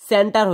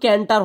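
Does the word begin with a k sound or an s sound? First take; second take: s sound; k sound. First: The word begins with an s sound. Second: The word begins with a k sound. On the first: The speaker calls it right. "সেন্টার হয়েছে" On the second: The speaker calls it wrong. "এটা কিন্তু ক্যান্টার হয় নাই"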